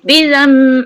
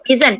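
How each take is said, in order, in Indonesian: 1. Suku kata itu berakhir dengan bunyi sengau m, bibir tertutup. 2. Suku kata itu berakhir dengan bunyi n. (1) "Menukarkan sebutan itu kepada mim terus. ... mulut tutup" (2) "Asalnya dia sebenarnya bizan"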